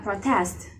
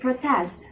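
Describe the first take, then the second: First: The stress is on the first syllable. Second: The stress is on the last syllable. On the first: It is used as a noun. "In noun, it will pronounced a protest" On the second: It is used as a verb. "but in verb, it will be pronounced to protest"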